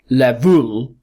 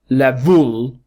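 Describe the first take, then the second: First: The second syllable is stressed with a full vowel. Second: The second syllable is stressed with a full vowel.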